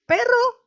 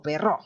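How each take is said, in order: First: "Perro" stressed PE-rro, high and questioning; stress on first syllable. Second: "perro" wrongly stressed pe-RRÓ; stress on last syllable. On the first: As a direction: hit the first syllable of "Perro", pitched well up. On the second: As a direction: shift the beat of "perro" onto its final o. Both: Shown as a demonstration. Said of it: "Si no saben cuál es la sílaba tónica".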